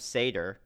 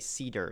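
First: The first syllable rhymes with 'say'. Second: The first syllable rhymes with 'see'. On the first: This is the speaker's own habitual pronunciation. "I always have said Sam Seder, because I assume it's a Seder, like the, you know, Passover dinner" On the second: This is how everyone else seems to say it. "I've been hearing everyone say Cedar"

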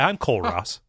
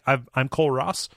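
First: The name is said in a confident tone. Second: The name is said in an uncertain tone. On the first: The speaker calls it right. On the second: The speaker calls it wrong.

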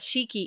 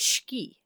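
First: The first vowel is fully pronounced. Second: The first vowel is dropped. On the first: The speaker calls it wrong. "Or not shiki" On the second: The speaker calls it right. "it's shiki"

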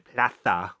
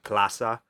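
First: The z is said as a th sound. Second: The z is said as an s sound. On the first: This copies the lisp of a king. "he'd say plaza with, like, the TH in there" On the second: This is the ordinary way to say it. "in Spanish, plaza is like plaza"

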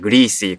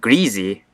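First: It is said the Northern way. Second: It is said the Southern Appalachian way. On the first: "Some people from the North, if I remember correctly, say just a greasy chord" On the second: "people in the South, you know, in the Appalachian region, pronounce it as greasy"

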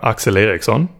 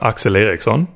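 First: The name is said with Swedish pronunciation. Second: The same.

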